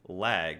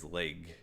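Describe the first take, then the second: First: The vowel is the open a as in cat. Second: The vowel sounds like the e in bed. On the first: The speaker calls it right. "if I say lag" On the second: The speaker calls it wrong. "she says leg"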